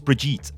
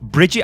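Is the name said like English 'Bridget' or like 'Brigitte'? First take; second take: Brigitte; Bridget. First: The name is said as Brigitte, not Bridget. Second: The name sounds like the English name Bridget. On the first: This is how the name is meant to be said. The speaker calls it right. "But I think it's Brigitte. At least that's how it's pronounced" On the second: This is the speaker's habitual English reading. The speaker calls it wrong. "I want to say Bridget, right? Because I'm, I'm, I guess I'm English"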